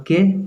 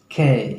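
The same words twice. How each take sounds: First: Said in the usual way. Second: के drawn out as "kay", falling; K with an A glide. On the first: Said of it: "इसको बोलते हैं हम लोग के". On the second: Shown as a demonstration. Teacher shows students how to say K, A-glide pronunciation. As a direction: stretch के with an added A sound. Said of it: "थोड़ा बोलना है ऐसे".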